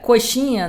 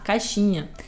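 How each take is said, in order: First: The first vowel is a clear 'o' sound. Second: The first vowel is reduced to an 'a' sound.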